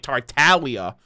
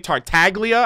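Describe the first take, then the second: First: The G in the middle is silent. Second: The G in the middle is pronounced.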